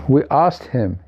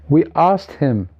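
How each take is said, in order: No difference in how they are said.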